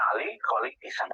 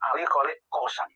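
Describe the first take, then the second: First: The last word is said with an i sound. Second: The last word is said with an o sound. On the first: This is the form the sources give. The speaker calls it right. "Sebenarnya itu Kisam" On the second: This is the form most people have grown used to hearing. The speaker calls it wrong. "sudah kadung mendengar masuk dalam memori kita"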